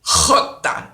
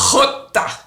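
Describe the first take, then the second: First: Jota said again with the throaty h; jota repeated. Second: Jota with a raspy throat-clearing h. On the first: Teacher repeating jota for the class. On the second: Teacher demonstrating the throaty jota sound. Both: Shown as a demonstration. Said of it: "you have to clear your throat".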